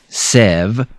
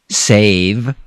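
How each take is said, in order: First: The vowel is a short E sound. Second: The vowel is a long A sound. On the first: The speaker calls it wrong. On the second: The speaker calls it right.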